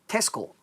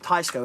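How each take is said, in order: First: The first vowel sounds like 'eh'. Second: The first vowel sounds like 'eye'. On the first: The speaker calls it right. "it's actually uh" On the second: The speaker calls it wrong. "a lot of people pr- pronounce it wrong because you look at it and you think"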